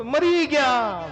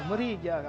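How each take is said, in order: First: Higher, louder, slowly stretched groan; loud moan. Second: Said in the usual way. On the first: Retold or imitated. Complainer groaning loudly about the summer heat. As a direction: wail it out like summer heat is unbearable. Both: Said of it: "પાછો શું કહે ખબર?".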